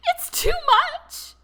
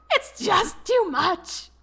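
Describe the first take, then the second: First: Very high, louder, slow squeak through laughter. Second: Higher, louder, slow laughing squeak. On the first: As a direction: squeeze it out, helpless with laughter. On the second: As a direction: still helpless with laughter, a bit less high. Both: A narrator's reading. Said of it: "he squeaked out".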